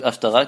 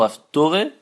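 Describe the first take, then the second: First: It has an 'a' vowel and ends in 'a'. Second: It has an 'o' vowel and ends in 'eh'.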